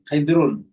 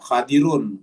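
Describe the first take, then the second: First: The first vowel is a short i sound. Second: The first vowel is an open a sound. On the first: "Bisa di kasrah di sini" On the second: "Kha-nya di fathah, do-nya di kasrah"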